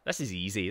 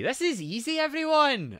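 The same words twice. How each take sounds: First: Said in the usual way. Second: High, loud rising squeal; high-pitched boast. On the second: Acted. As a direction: sing it out high to the crowd. Hyping chat that it is easy.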